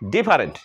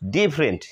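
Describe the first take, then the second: First: The middle vowel is pronounced as a full syllable. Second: The middle vowel is dropped from the word. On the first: The speaker calls it wrong. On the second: The speaker calls it right.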